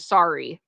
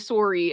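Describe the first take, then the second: First: The word is said in an American accent. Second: The word is said in a Canadian accent. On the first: "as opposed to sorry" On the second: "we say sorry"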